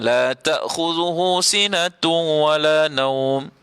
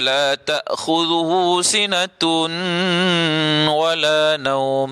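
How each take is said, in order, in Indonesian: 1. N melebur ke wala tanpa dengung sengau. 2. N tetap dibaca terpisah sebelum wala. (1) "dia masuk idgham tapi dia tak dengung" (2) "Tidak ada idgham"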